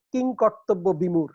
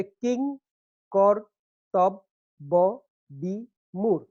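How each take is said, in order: First: Said in the usual way. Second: "কিং কর্তব্য বিমূঢ়" very slowly, in six separate syllables. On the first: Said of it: "একটি জটিল শব্দ". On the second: Shown as a demonstration. Teacher counting six syllables, each one set apart. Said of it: "এখানে ছয়টা syllable আছে".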